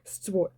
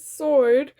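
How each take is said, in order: First: The W sound is pronounced after the S. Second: The W sound is silent after the S. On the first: It is said as a joke. "I'm that kind of person who pronounces the W" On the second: It is the normal reading. "normally when I'm reading something out, I don't say sword"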